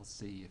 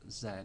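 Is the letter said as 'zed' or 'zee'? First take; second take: zee; zed. First: The letter is said the American way, 'zee'. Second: The letter is said the British way, 'zed'.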